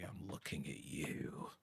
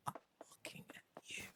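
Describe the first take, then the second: First: Soft, slow, pointed aside; hushed aside. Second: Very soft, pointed whisper. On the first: Player calling out Stardew Valley, soft slow aside. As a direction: drop soft and draw it out. Jokey aside to another game. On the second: Player calling out Stardew Valley, mock-menacing whisper. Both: Pretend.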